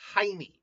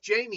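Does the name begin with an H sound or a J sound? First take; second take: H sound; J sound. First: The name begins with an H sound. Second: The name begins with an English J sound. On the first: The speaker calls it right. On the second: The speaker calls it wrong. "someone by, by the way a while back corrected me. It's like it's it's it's pronounced Jamie"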